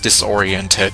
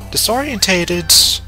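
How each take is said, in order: First: The word has five syllables. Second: The word has an extra syllable, six in total. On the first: The speaker calls it right. "I know it's disoriented" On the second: The speaker calls it wrong. "I realized that I was mispronouncing disoriented"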